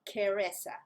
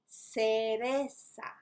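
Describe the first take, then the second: First: The first consonant is a k sound. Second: The first consonant is an s sound. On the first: The speaker calls it wrong. "not cereza" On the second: The speaker calls it right. "So you have an S sound"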